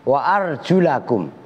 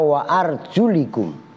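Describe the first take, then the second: First: The vowel after arjul is a. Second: The vowel after arjul is i. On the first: The feet are to be washed. "qiraah biasa kalian baca Quran" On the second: The feet are grammatically joined to the heads. "ada yang baca"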